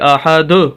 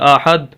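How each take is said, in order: First: The final d is released with a small bounce. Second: The final d stops flat without any bounce. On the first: The speaker calls it right. "ये द जो कोई आवाज़ आ रही है यही कलकला है" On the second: The speaker calls it wrong. "अगर हम कलकला नहीं करते तो लफ्ज़ बनता है आहद, दाल को वहीं छोड़ देते हैं, जो कि दुरुस्त नहीं है"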